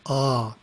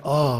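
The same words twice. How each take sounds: First: A long open Ah held out; prolonged ah. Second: Said in the usual way. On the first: Shown as a demonstration. Teacher demonstrating the first syllable of Om, prolonged. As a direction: draw out Ah steadily. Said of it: "but prolonged". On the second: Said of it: "pronounced as the English word ah".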